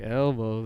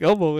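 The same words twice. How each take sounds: First: It is said slower with a long first vowel. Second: It is said quickly with a short first vowel. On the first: "then it's fucking long e" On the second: "if you say it quick, it has a short short e"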